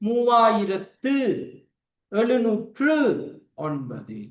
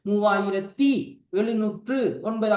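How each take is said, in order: First: The first word ends in an oo sound. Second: The first word ends in an ee sound. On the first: This is the correct written form. The speaker calls it right. "ஊங்குற சவுண்ட்ல தான் கடைசியில முடியும்" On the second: This is the casual spoken form. The speaker calls it wrong. "பேச்சு வழக்குல சொல்லுவோம் ... அப்ப தீங்கிறது வரக்கூடாது"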